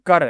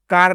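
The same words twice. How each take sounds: First: कर said with a short a, no long aa; teacher gives the right reading कर, short and quick; right short vowel. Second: कार said with a long aa, as the wrong reading; teacher shows कार long, then rejects it; wrong long vowel. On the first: Teacher corrects the student, कर with a short a. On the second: Teacher contrasts the wrong reading कार with a long aa. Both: Shown as a demonstration. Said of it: "कार नहीं बोलेंगे".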